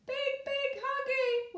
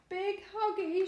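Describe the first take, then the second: First: Put-on high, slow, mildly weepy toddler voice; weeping baby. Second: Put-on sung, coo it lovingly like a baby cuddling mum; crooning. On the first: Baby carried away from mother, mild weepy wail. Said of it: "wept the baby". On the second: Baby hugging her mother, crooning fondly. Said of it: "she crooned".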